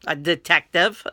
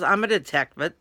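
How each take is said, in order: First: Repeating the word through a laugh. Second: Said in the usual way. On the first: Retold or imitated. Laughing as he tells her his job again. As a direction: chuckle it out.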